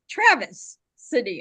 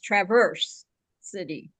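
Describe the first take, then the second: First: The first word sounds like two-syllable Travis. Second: The first word sounds like Traverse, with an r. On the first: The speaker calls it wrong. "I always say Travis City, and it's not Travis City" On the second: The speaker calls it right. "It's Traverse City"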